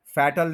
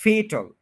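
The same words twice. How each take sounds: First: फैटल with short "a", as FAT-l; mispronounced fatal. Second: फेटल higher and louder, as FAY-tl; correct fatal. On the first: Teacher showing the mistake, फैटल as FAT-l. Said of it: "नहीं कहना". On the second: Teacher correcting learners, फेटल as high FAY-tl. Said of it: "फैटल नहीं कहना". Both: Shown as a demonstration.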